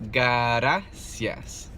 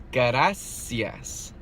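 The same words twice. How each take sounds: The two takes are said the same way.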